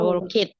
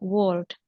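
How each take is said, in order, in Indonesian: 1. Akhiran itu dibaca sebagai suku kata tambahan. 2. Akhiran itu bunyi t pendek, satu suku kata.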